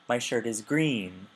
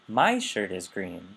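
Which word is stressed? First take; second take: green; My. First: The stress falls on the word green. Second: The stress falls on the word my. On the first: It answers what color the shirt is. "Your shirt is what color?" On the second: It answers whose shirt is green. "whose shirt is green?"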